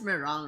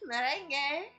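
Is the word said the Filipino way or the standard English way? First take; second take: standard; Filipino. First: It is said with standard English pronunciation. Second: It is said with Filipino spelling-based pronunciation. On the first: "I'm pretty sure that it's just meringue" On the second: "We call it merengues. Merengue"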